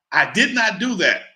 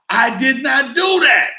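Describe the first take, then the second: First: Said in the usual way. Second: Higher, louder and slow, every word hit; "I did not do that" said slowly, loud and high; emphatic denial. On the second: Shown as a demonstration. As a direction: insist hard, leaning on do. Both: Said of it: "repeated denial".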